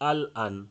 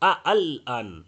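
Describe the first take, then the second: First: The second glottal stop is dropped entirely. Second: The second glottal stop is said hard and full. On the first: "এভাবে ছেড়ে দিয়েও পড়া যাবে না" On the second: "এরকম শক্ত করে পড়া যাবে না"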